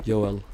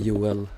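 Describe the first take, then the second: First: The name is pronounced the Swedish way. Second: The name is pronounced the Swedish way.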